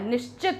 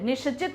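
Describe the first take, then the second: First: No vowel follows the sh sound. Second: A vowel follows the sh sound. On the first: The speaker calls it right. "श आधा होता है" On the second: The speaker calls it wrong. "निश्चित नहीं होता है"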